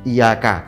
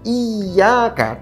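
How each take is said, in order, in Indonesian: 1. Bunyi y dibaca pendek dan tunggal. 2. Bunyi y dibaca panjang dan ditasydid. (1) "dibaca iyyaka gitu aja. Maknanya berubah itu" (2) "di sana ada siddah"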